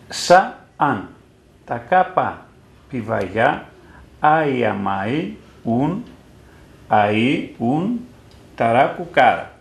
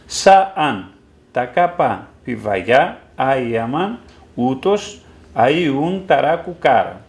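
First: It is read literally, as the old text stands. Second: It is read in present-day spoken Pontic dialect.

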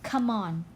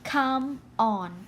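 First: The two words are linked together smoothly. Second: The two words are said separately.

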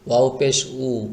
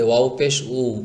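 The two takes are said the same way.

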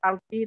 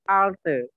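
First: The final vowel is a clear 'ee' sound. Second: The final vowel is a duller, central sound. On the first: The speaker calls it wrong. "Bukan alti" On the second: The speaker calls it right. "tapi alte"

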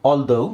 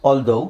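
The two takes are said the same way.

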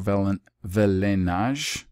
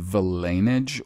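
First: The word is pronounced in a French-like way. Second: The word is pronounced in a plain English way.

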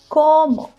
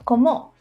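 First: The stress is on the first syllable. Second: The stress is on the second syllable. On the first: The speaker calls it right. "el acento está en la primera O" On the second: The speaker calls it wrong. "and not como"

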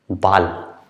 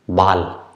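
First: The word has the German vowel sound. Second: The word has the German vowel sound.

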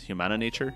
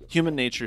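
First: An extra vowel comes before 'Nature'. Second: No extra vowel comes before 'Nature'. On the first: This is thought to be the correct name. "I think it's Humana Nature" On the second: This is the form chosen for convenience. "is how I'm going to pronounce it"

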